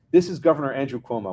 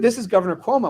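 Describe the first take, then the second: First: Said in the usual way. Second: High-pitched, self-announcing official; mock-important caller introduction; imitated governor. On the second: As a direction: announce yourself grandly, pitched well up.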